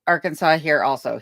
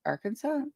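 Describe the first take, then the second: First: Said in the usual way. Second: Arkansas? asked with a soft, rising, doubtful tune; unsure rising Arkansas. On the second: Shown as a demonstration. Reading a viewer's comment, unsure of the word, questioning. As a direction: try out Arkansas as a hushed question.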